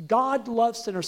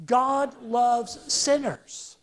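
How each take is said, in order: First: Said in the usual way. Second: "God loves sinners" drawn out slowly, word by word; slow group recitation. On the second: Shown as a demonstration. Preacher leading the congregation in saying "God loves sinners", slow and deliberate. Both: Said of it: "Say that with me".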